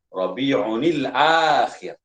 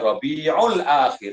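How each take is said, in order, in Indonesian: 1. Bunyi n bersambung ke kata sandang. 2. Bunyi n digugurkan sebelum kata sandang. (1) "sebutan yang betul" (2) "Bukan Rabi'ul Akhir, salah"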